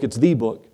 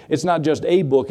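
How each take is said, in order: First: "the" stressed as "thee", pitched lower. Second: "a" stressed as a full "ay". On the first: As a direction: land firmly on "the", saying it "thee". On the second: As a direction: lean on "a" in "a book", saying it "ay". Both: Real, not acted.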